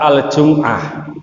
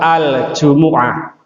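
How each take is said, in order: First: The word has no vowel between m and ayn. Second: The word has a vowel between m and ayn. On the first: This is the Indonesian pronunciation. The speaker calls it wrong. "bukan surat Al-Jum'ah" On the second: This is the Arabic pronunciation. The speaker calls it right. "kalau di Al-Quran itu suratnya surat Al-Jumu'ah"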